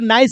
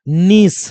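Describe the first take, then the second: First: The vowel sounds like 'eye', as in nice. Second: The vowel sounds like a long 'ee'. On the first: The speaker calls it wrong. "बहुत लोग इसको नाइस भी पढ़ लेता है, but ये pronunciation गलत है" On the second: The speaker calls it right. "दीर्घ ई की मात्रा ले लो तो बन गया नी"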